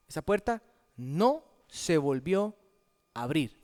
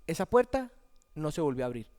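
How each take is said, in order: First: "Esa puerta... NO... se volvió... a abrir", broken by pauses; emphatic repetition. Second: Said in the usual way. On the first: Shown as a demonstration. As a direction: stress "no" and pause around it, then drop low on "abrir". Statement repeated for emphasis.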